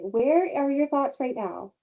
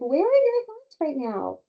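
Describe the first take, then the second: First: The question sounds harsh and scolding. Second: The question sounds gentle and friendly. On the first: The child is being reprimanded. The speaker calls it wrong. "change your tone" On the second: The child is being supported, not punished. The speaker calls it right. "that's very different"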